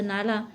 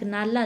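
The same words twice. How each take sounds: First: नाला with Marathi-like ळ; retroflex l. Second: Said in the usual way. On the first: Shown as a demonstration. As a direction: curl the tongue back for l in नाला. (नाला में मूर्धन्य ळ) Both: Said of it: "के समान मूर्धन्य रूप में".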